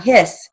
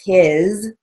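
First: "hiss" with a sharp, hissing S sound; wrong pronunciation. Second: "his" ending in a buzzing Z sound; right pronunciation. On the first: Teacher showing the wrong way to say a word. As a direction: say "hiss" the way it should not sound. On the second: Teacher correcting the word to the right sound. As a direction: say "his" with a voiced Z at the end. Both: Shown as a demonstration. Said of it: "his is H I Z. It's not hiss".

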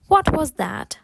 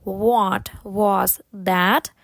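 First: Natural-speed, connected question; faster. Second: Very slow, drawn-out words. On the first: Teacher then has learners try it quicker, faster. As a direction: say it in one quick run. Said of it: "потім спробувати швидше". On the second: Teacher has learners repeat slowly first, very slow. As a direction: stretch each word and pause between them. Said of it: "Можете повторити повільно". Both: Shown as a demonstration.

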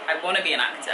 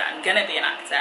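First: Wanna said first, then corrected; stress on wanna. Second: "gonna" firmly stressed as a correction. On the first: Fan-chat vlog, stressed "wanna" as a wish. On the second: Answering fans, firmly stressed "gonna" correction. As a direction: correct yourself and lean on "gonna". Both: Shown as a demonstration.

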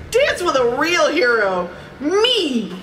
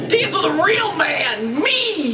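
First: High, proud storybook flourish; boastful. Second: Slow, high-pitched parody boast; hammed-up boast. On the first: A narrator's reading. Donald invites Daisy to dance, boastful. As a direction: show off, landing high on the last word. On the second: Reader mocks Donald's line between laughs, hammed-up boast. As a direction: overblown hero, soaring on the last word.

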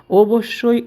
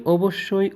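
First: অবশ্যই called out high and loud, leaning on the first syllable; অবশ্যই thrown out high and loud to grab the class; emphatic "definitely". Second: Said in the usual way. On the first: Shown as a demonstration. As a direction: punch অবশ্যই like a firm teacher's answer. Teacher stresses the right answer.

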